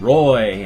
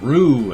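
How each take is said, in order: First: The name has the vowel of boy. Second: The name has the vowel of zoo. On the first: "I get Rue and Roy" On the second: "I get Rue and Roy"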